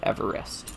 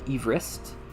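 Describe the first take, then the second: First: The word is said with three syllables. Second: The word is said with fewer than three syllables. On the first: This is how the name is commonly heard today. "like a three syllable Everest" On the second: This is how the namesake pronounced his own name. "it's pronounced Everest, like Everest"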